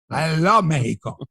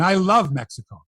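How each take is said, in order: First: Mexico said "MEH-hee-ko", with an h for the x; Spanish-style Mexico, the x breathed as h; Spanish pronunciation. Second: Said in the usual way. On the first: Pretend. Host defending his love of the country, Mexico as "MEH-hee-ko".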